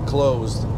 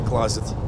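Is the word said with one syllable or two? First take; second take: one; two. First: It is one syllable ending in a d sound. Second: It is two syllables ending in a t sound. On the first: The speaker calls it right. "Closed, а не closet" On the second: The speaker calls it wrong. "Closet это по-вашему нашему"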